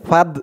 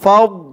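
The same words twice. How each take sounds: First: The consonant is a plain light d sound. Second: The consonant is a heavy emphatic d sound. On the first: The speaker calls it wrong. "একেবারে ফাদ এরকম বলা যাবে না ফাদ বললে কিন্তু দালের উচ্চারণ চলে আসবে" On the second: The speaker calls it right. "দোয়াদের উচ্চারণটাই করতে হবে"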